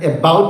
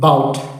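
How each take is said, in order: First: The first vowel is full and clear. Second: The first vowel is very short and reduced. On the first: The speaker calls it wrong. "ശരിക്കും പറയേണ്ടത് എബൌട്ട് എന്നല്ല" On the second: The speaker calls it right. "അതായത്"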